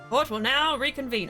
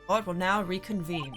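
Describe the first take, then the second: First: It is said in a normal voice. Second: It is said in a dramatic deep voice.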